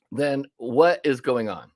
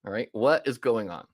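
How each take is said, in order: First: Drawn out, weighing each word; slow the question right down, pressing it; slow emphatic question. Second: Said in the usual way. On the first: Retold or imitated. Retold question to a client.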